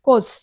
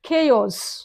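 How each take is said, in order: First: It is said as one syllable, 'kohz'. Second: It is said as two syllables, 'kay-os'. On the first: The speaker calls it wrong. "మనం ఏమంటాం జనరల్గా కోజ్ అంటాం" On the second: The speaker calls it right. "అది కోజ్ కాదు"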